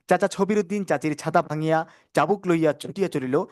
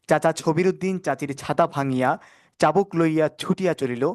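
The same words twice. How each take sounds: First: The sentence is spoken fast. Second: The sentence is spoken slowly. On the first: "এরপর দ্রুত" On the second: "প্রথম ধীরে ধীরে"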